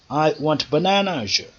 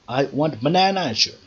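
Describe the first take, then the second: The two takes are said the same way.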